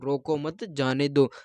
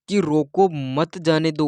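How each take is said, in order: First: The pause comes right after 'mat'. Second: The pause comes right after 'roko'.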